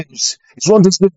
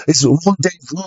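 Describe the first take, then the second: First: "rendezvous" with the z and final s sounded; anglicised pronunciation. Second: "rendezvous" with a soft French r; French pronunciation. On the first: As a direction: say "rendezvous" as clumsy British English, "ron-dez-vooz". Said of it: "I know it's rendezvous". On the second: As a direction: say "rendezvous" in a mock French accent, final s silent. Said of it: "Say rendezvous". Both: Acted.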